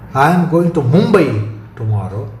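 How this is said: The word "Mumbai" carries the stress. No other destination is meant. "Stress on Mumbai rules out any other destination"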